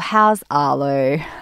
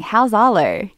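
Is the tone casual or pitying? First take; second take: pitying; casual. First: The question is asked in a heavy, pitying tone. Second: The question is asked in a light, casual tone. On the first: The asker treats the child's situation as a tragedy. The speaker calls it wrong. "not sort of saying, oh" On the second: The asker is simply and warmly asking after the child. The speaker calls it right.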